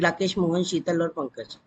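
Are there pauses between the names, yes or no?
no. The names run together without pauses.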